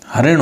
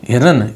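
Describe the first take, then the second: First: "हरिण" said ha-rin, with the i moved to the second syllable; the correct "हरिण", ha-rin; "हरिण" spoken as ha-rin, short a then ri; correct form. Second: "हिरण" said hi-ran, with the i in the first syllable; the incorrect "हिरण", hi-ran; "हिरण" spoken as the mistaken hi-ran; wrong form. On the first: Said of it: "हरिण होता है". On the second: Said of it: "हिरण नहीं होता वो". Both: Shown as a demonstration.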